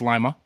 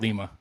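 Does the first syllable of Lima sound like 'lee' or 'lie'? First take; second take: lie; lee. First: The first syllable sounds like 'lie'. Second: The first syllable sounds like 'lee'. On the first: The speaker calls it right. "It's Lima, the original bean town" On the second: The speaker calls it wrong. "It's not L E E E E M A"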